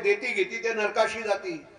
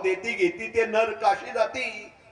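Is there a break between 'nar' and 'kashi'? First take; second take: no; yes. First: 'Narakashi' is said as one unbroken word. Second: A break separates 'nar' from 'kashi'. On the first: Those who give and take go to hell. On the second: Those who give and take go to Kashi.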